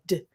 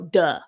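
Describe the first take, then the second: First: The D sound is cut off short. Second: The D sound is followed by a vowel. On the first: The speaker calls it right. "we're supposed to, like, cut it off and go" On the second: The speaker calls it wrong. "but in the South, we go"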